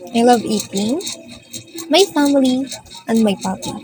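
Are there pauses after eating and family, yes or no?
yes. There are pauses after eating and family.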